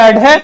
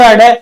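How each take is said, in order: First: "अढे" said as a-ṛe, tongue flicked downward. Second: "अढे" said as a-ṛhe, tongue flicked downward with breath. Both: Shown as a demonstration. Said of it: "जीभ है वो नीचे झड़काई जाती है".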